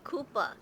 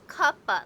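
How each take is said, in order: First: The first vowel is a long 'oo' sound. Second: The first vowel is a short 'u' sound. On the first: The speaker calls it wrong. "for some reason they say Koopa. It's not Koopa" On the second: The speaker calls it right. "It's Cuppa, like cup of coffee"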